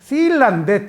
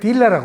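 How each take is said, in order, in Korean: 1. 이 단어는 S 소리로 시작해요. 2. 이 단어는 D 소리로 시작해요. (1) "S를 스를 D로 발음해요" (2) "딜라라고 그러는 거예요"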